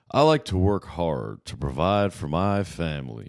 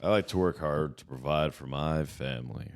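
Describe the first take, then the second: First: Slow, folksy farmer voice; drawn-out hard-working farmer. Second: Lightly voiced farmer; a hint of a folksy farmer. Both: Shown as a demonstration. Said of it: "That's my farmer voice".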